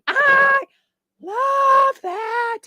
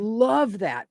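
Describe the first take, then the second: First: It is shouted loudly. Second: It is said with emphasis, not shouting.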